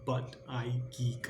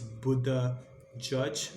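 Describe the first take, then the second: First: The name ends with a hard 'geek' sound. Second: The name ends with a soft 'judge' sound. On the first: The speaker calls it wrong. "not how it's spelled" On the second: The speaker calls it right. "I think it's Buddha Judge"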